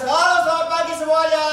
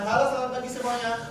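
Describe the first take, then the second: First: The greeting is said loudly with strong power. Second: The greeting is said at a soft, low volume. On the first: People far away can hear it. The speaker calls it right. "Minimal kayak gitu, ya kan? Ini power" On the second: People far away would not hear it. The speaker calls it wrong. "kira-kira yang di ujung kedengaran nggak?"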